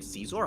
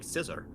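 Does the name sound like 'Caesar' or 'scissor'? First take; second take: Caesar; scissor. First: It is said like 'Caesar', with a long vowel. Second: It is said like 'scissor', with a short vowel. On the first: "Do you actually pronounce it like Caesar?" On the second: "I thought it was just like scissor"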